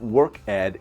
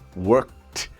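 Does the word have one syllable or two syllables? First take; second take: two syllables; one syllable. First: The ending is said as a separate syllable. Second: The ending joins the word as one syllable. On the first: The speaker calls it wrong. "The pronunciation is not work ed" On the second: The speaker calls it right. "it's worked"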